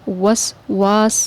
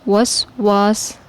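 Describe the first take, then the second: No difference in how they are said.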